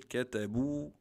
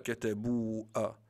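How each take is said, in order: First: The word ends without an extra 'a' vowel. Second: The word ends with an extra 'a' vowel. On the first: The speaker calls it right. "On l'écrit, mais on ne le prononce pas" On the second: The speaker calls it wrong. "On ne dit pas"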